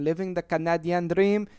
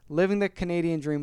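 First: It is said in a put-on French-Canadian accent. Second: It is said in the speaker's ordinary accent.

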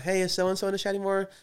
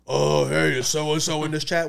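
First: It is said in the speaker's normal voice. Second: It is said in a put-on Riley voice.

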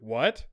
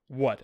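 First: The voice rises at the end. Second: The voice falls flatly at the end. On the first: It is a plain question. "as opposed to what" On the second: The speaker is curt or concerned. "What with a period"

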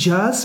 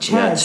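First: The name begins with a voiced 'j' sound. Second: The name begins with a voiceless 'ch' sound. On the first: The speaker calls it wrong. "Het is eigenlijk niet jazz" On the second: The speaker calls it right. "maar Chaz"

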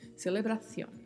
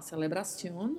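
First: The c is said as a th sound. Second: The c is said as an s sound. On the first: "com o som gerado com a língua entre os dentes, semelhante ao thank you do inglês" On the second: "o C tendo o som de S mesmo"

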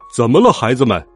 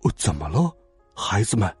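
First: The question is said in a loud voice. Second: The question is said in a soft voice. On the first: "他的声音很响" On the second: "这次他的声音很轻了"

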